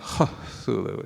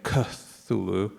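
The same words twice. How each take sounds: First: The word starts with an added breathy sound. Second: The word starts without an added breathy sound. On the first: "It's making a breathier sound there" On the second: "Instead of saying Cthulhu"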